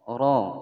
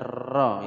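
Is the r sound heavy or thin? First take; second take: heavy; thin. First: The r sound is heavy and full. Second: The r sound is thin and light. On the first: The speaker calls it right. "Ini ro-nya dibaca tebal" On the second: The speaker calls it wrong. "bukan ro ya"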